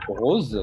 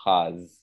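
First: "rose" with a closed o, said slowly; Parisian pronunciation. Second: "Rose" with an open a-like vowel; southern French "Rose" with an open vowel, like raz; southern pronunciation. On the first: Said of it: "avec un accent parisien". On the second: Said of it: "des personnes dire la couleur rose". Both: Shown as a demonstration.

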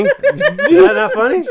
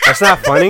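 First: "Is that not funny?" laughed out, much higher and slower; laughing question. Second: "not" hit loud and high; stress on not. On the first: Teller checking if the story landed, laughing. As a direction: ask it while breaking up laughing. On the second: Teller insisting the story is funny, stress on not. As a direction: lean on "not". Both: Real, not acted.

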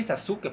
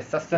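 First: Sasuke with every syllable said, su fully voiced; careful full Sasuke. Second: Sasuke with the u swallowed, like saske; Japanese Sasuke. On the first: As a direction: spell out Sasuke as sa-su-ke. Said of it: "puedes decir Sasuke". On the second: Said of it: "realmente es Sasuke". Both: Shown as a demonstration.

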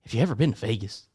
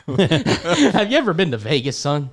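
First: Low, understated coach pitch; lightly put-on recruiter, setting up a sell; recruiting coach. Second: Down south coach. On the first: Coach asking the recruit about Vegas, low-key mock pitch. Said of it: "like, the recruiting pitch". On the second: Pretend. Coach repeating himself to the recruit, slow laughing Southern pitch. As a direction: draw it out like a Southern recruiter, amused. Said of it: "most down south college football coach".

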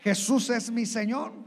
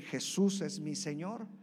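First: Loud confession. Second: Said in the usual way. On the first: Shown as a demonstration. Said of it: "todos pudieron decir". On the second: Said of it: "Si puede decir".

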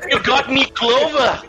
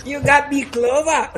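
First: High, playful Irish leprechaun voice; squeaky cartoon leprechaun. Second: Lighter leprechaun echo, half-laughing; a hint of a leprechaun. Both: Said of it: "aprenda a falar que não lê Leprechaun".

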